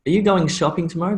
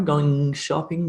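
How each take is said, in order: First: Fast, higher question with GOING SHOPPING run together; natural connected speech. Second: Slow GOING SHOPPING, dwelling on the NG-SH join; cluster highlighted. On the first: Teacher showing how natives connect words, quick natural demo. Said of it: "when you start to speak ... naturally". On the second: Teacher showing two sounds combined, slowed linking demo. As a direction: ease through GOING into SHOPPING. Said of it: "combined into one sound". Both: Shown as a demonstration.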